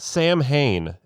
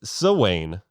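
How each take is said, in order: First: It is said as spelled, with an m sound. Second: It is said with no m, like 'sow-in'. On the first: The speaker calls it wrong. "That's not how you say it" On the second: The speaker calls it right. "actually it's Sawain"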